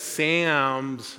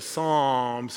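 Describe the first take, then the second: First: "Sam's" for Psalms, with a short a; Belfast-accented Psalms. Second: Said in the usual way. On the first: Shown as a demonstration. Explaining the Belfast accent joke, Psalms pronounced "Sam's". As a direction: say Psalms with the vowel of cat, "Sam's". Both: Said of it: "he says Sam's instead of Psalms".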